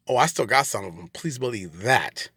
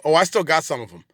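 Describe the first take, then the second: First: Lower, slowing to a drawn-out finish; low knowing assurance. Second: Said in the usual way. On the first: Real, not acted. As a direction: drop low and promise it slowly. Repeats it as a warning.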